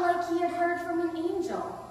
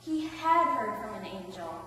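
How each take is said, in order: First: High, loud, breaking the news; excited report. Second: HAD punched, the rest lower; stress on HAD. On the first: First take, wondering simile. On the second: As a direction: confirm it with weight on HAD. Confirms the simile as fact. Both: Acted.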